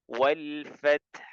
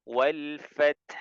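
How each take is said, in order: Both takes have the same delivery.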